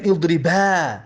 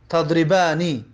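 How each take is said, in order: First: اضربا ending on a long, drawn-out open "aa"; final nun dropped. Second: Said in the usual way. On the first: Shown as a demonstration. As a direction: say اضربا with no final "ni", holding the last vowel. («اضربا» بدون نون، با الف کشیدهٔ آخر)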